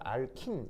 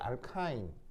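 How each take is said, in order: First: The last syllable has a short 'i' vowel. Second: The last syllable has the diphthong 'ai'. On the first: This is the Japanese-style pronunciation. "친일식으로는" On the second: This is the American-style pronunciation. "친미식으로는"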